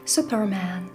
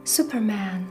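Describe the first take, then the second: No difference in how they are said.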